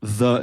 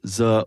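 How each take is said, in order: First: The word has an English-sounding first consonant. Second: The word has a French-accented first consonant. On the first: The speaker calls it right. "producing English sounds" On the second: The speaker calls it wrong. "instead of"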